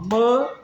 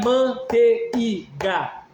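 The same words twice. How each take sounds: First: "manteiga" broken into man, tei, ga with long pauses; three-syllable demonstration. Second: "manteiga" chopped into man, te, i, ga; wrong syllable split. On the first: Teacher showing one breath per syllable, "manteiga" as man-tei-ga. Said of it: "ela é uma emissão expiratória". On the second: Teacher showing what it is not, "manteiga" slowly as man-te-i-ga. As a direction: slowly say "manteiga" in four beats, separating e and i. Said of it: "Não é manteiga". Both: Shown as a demonstration.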